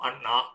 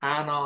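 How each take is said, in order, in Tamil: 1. குறுகிய முதல் உயிரெழுத்து, அழுத்தமான n. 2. நீண்ட முதல் உயிரெழுத்து, லேசான n. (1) "நம்ம கொஞ்சம் அழுத்தி சொல்லுவோம்" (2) "அவங்க ஆனாம்பாங்க"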